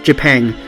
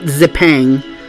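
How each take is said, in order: First: The word begins with a j sound. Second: The word begins with a z sound. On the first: The speaker calls it right. "even though it's written with a Z, it's pronounced Japan" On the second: The speaker calls it wrong. "not Zipang"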